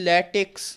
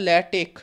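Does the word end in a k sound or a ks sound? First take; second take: ks; k. First: The word ends with a ks sound. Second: The word ends with a plain k sound. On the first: The speaker calls it wrong. "Actually এটা ভুল উচ্চারণ" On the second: The speaker calls it right. "সঠিক উচ্চারণ"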